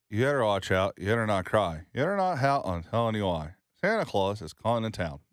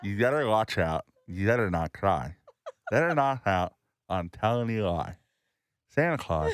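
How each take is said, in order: First: Spoken word like an amateur ventriloquist. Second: Spoken word with lips held open; muffled lip sounds, mouth stretched wide; mouthpiece in. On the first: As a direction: recite without moving the lips. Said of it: "This is me being a ventriloquist". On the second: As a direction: recite round a gadget in the mouth. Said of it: "This is without the thing". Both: Shown as a demonstration.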